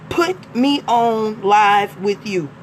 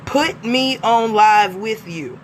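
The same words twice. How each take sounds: First: Curt demand read. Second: Mock demand. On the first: Retold or imitated. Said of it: "That's not the way that we ask". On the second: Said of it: "Is that a demand or is that a question?".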